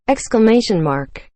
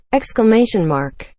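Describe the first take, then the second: No difference in how they are said.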